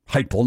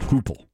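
First: The first syllable rhymes with hype. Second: The first syllable rhymes with hoop. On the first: The speaker calls it right. "Heupel, not Hoople" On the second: The speaker calls it wrong. "not Hoople"

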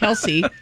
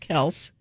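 First: The name ends with an ee sound. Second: The name ends with an s sound. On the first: The speaker calls it wrong. "got tired of people saying his name wrong" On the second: The speaker calls it right. "well, really, it's Kels"

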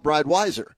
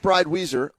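First: The second part has an 'eye' vowel. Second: The second part has an 'ee' vowel. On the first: "others call it Bride Weiser" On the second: "some call it Bride Weezer"

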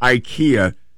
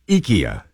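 First: The name is said with a common English pronunciation. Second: The name is said with a Swedish pronunciation. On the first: The speaker calls it wrong. "you don't pronounce it IKEA" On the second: The speaker calls it right. "That's the Swedish way to pronounce it"

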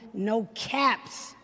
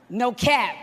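First: The phrase ends with an added s sound. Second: The phrase ends without any s sound. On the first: The speaker calls it wrong. "I probably said it wrong" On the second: The speaker calls it right. "that's what it's supposed to be"

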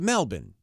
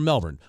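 First: The R sound is dropped from the word. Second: The R sound is pronounced in the word. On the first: This is how Australians say it. "in Australia, they say Melbourne" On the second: This is how Americans say it. "We say Melbourne"

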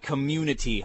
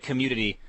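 First: The word is said slowly and carefully. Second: The word is said quickly and run together. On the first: The speaker calls it right. "I have to really slow it down" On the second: The speaker calls it wrong. "I say it fast, it sounds like community"

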